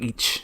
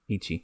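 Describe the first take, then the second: First: The second syllable is nearly dropped. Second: Both syllables are fully pronounced.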